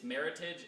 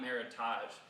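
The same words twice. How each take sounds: First: The ending sounds plain, like in 'heritage'. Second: The ending sounds fancier, unlike 'heritage'. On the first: The speaker calls it right. "it's Meritage ... combination of, of the word merit and heritage" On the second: The speaker calls it wrong. "not Meritage ... does sound much fancier"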